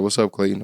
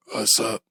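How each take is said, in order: First: Said in the usual way. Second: Imitating a voiceless, whispered reply; lost-voice greeting. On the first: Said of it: "My supervisor's like". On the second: Answering his supervisor with no voice, whispered. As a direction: squeeze out a greeting with no voice behind it. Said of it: "I sounded like today".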